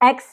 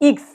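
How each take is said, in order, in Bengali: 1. অক্ষরের নামটা 'eh' স্বরধ্বনি দিয়ে শুরু। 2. অক্ষরের নামটা 'ee' স্বরধ্বনি দিয়ে শুরু। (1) "এক্স না"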